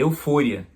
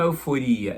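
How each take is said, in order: First: The stress falls on the syllable 'fo'. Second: The stress falls on the syllable 'ri'. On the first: The speaker calls it right. "é eufória. Então, a entonação é diferente" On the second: The speaker calls it wrong. "Só que não é euforia"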